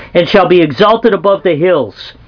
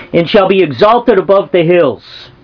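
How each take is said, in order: Both takes have the same delivery.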